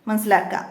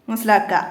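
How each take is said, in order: Both takes have the same delivery.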